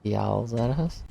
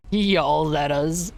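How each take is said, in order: First: Said in the usual way. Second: Yowls at us slowly, weight on Yowls; slow stressed yowls. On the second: Shown as a demonstration. Streamer puzzling over friend's accent, slow stress on Yowls. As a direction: drag out Yowls at us, leaning on Yowls.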